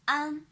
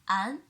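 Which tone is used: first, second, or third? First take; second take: first; second. First: The pitch stays high and level. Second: The pitch rises from middle to high. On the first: "the first tone" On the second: "The second tone"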